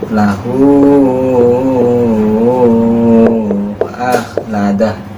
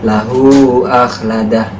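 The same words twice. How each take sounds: First: The vowel of 'hu' is stretched long, six counts. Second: The vowel of 'hu' is held briefly, two counts. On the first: "Kalau enam harokat" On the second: "Kalau dua harokat"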